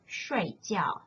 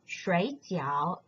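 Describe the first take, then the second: First: Both syllables are in the falling tone. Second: The syllables are not in the falling tone. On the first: It means to sleep. "When you change the tones into the fourth tone" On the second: It means dumplings. "in the left-hand side"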